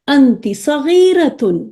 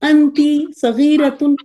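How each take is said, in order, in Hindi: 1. यह भावना के साथ बोला गया है, सुर ऊपर-नीचे होता है। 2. यह सपाट तरीके से बोला गया है, सुर में कोई उतार-चढ़ाव नहीं। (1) "हम मोनोटोनस नहीं, हम उन फीलिंग के साथ, उन उतार चढ़ाव के साथ" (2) "फिर तो नहीं लगेगा कि हम लैंग्वेज बोल रहे हैं ना"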